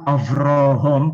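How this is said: The name is pronounced with O vowels. This is the Yemenite tradition's reading. "dengan sebutan Avrohom pakai O ya"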